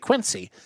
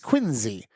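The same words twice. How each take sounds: First: It is said the general American way. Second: It is said the local Boston way. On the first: An outsider says it. The speaker calls it wrong. "Most of the country would say Quincy" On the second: A local says it. The speaker calls it right. "but it's Quincy"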